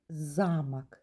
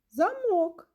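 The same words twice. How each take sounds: First: Замок with stress on ЗА, ЗАмок; stress on the first syllable. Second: Замок with stress on МОК, zaMOK, drawn out and higher; the word замок with stress on the end, like a lock; stress on the second syllable. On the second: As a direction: stretch and lift the last syllable of замок. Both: Shown as a demonstration. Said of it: "склади вимовляються з різною силою".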